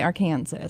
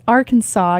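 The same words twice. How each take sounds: First: "Arkansas" said like Ar-Kansas, with the final s sounded; "Arkansas" with a Kansas ending, not "saw"; wrong Arkansas. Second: "Arkansas" said AR-kan-saw with the final s silent; "Arkansas" as the state code says it, silent s; proper Arkansas. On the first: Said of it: "You can't say Arkansas". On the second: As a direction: say "Arkansas" in three syllables, ending in "saw". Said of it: "You must say it right". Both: Shown as a demonstration.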